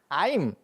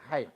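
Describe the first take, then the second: First: Galilean accent, with the h sound dropped. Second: Judean accent, with the throaty h sound.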